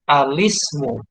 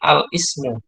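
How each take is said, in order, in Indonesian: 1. Artikel itu langsung menyambung ke kata, tanpa hamzah. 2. Hamzah memisahkan artikel dari kata. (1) "alifnya tidak dibaca. Jadi yang benar adalah cara membacanya alismu" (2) "bukan al-ismu"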